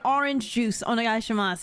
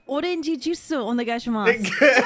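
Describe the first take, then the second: First: Orange juice is pronounced the English way. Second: Orange juice is pronounced the Japanese way. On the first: The speaker calls it wrong. "sometimes it doesn't work to say" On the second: The speaker calls it right. "You gotta hit them with the"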